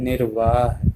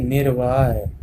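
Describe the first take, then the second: First: Said in the usual way. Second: निर्वाह ending in a y-glide, nir-vaay; misspelt reading. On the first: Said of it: "होता क्या है". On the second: Shown as a demonstration. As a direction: soften the final ह of निर्वाह to य. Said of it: "ये क्या लिखा है". (निर्वाह को निर-वाय पढ़ें)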